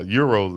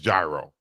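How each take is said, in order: First: The word begins with a 'y' sound. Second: The word begins with a 'j' sound. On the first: This is how the speaker's own group says it. "as we call them" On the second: This is how people in the South say it. "they'll pronounce it how we see it"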